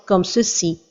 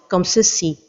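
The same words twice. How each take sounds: No difference in how they are said.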